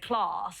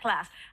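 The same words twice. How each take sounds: First: It is said in a southern English accent. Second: It is said in a northern English accent. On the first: The speaker hides a northern working-class background. "I better say class" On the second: The speaker shows a northern working-class background. "not class"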